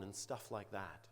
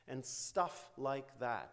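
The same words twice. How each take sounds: First: Said in the usual way. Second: "And stuff like that" drawn out slowly, word by word; pointed slow repeat. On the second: Shown as a demonstration. Lecturer quoting the client to point out vagueness, pointedly slow repeat. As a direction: stretch "stuff" and "like that" to highlight them. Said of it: "It's the vagueness".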